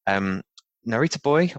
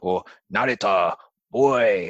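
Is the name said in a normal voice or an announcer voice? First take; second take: normal; announcer. First: It is said in a plain, ordinary speaking voice. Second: It is said in an exaggerated, dramatic announcer voice.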